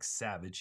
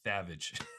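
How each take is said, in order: First: It begins with a clear S sound. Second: It begins with a lisped TH sound. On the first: "instead of his S's like Savage" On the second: "he does the T H thing"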